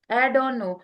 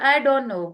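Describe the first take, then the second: No difference in how they are said.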